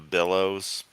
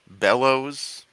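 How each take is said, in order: First: The first vowel sounds like the one in 'bit'. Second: The first vowel sounds like the one in 'bet'. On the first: The speaker calls it wrong. "not an I" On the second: The speaker calls it right. "It's an E"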